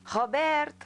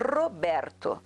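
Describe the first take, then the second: First: The first R is a guttural throat sound. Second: The first R is a strongly rolled trill. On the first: The speaker calls it wrong. "eu falava" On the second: The speaker calls it right. "marco muito os R's"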